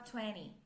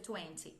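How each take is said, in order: First: The T sound after the N is dropped. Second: The T sound after the N is clearly pronounced. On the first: "geralmente uh, a gente fala vinte, porque esse N anasalado ele mata o som do T" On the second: "Você pode dizer vinte, no problem"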